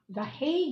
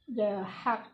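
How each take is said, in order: First: It is said the English way, like 'Hague'. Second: It is said the Dutch way, like 'hack'. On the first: "in English" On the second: "the hack daw ang pag-pronounce nun"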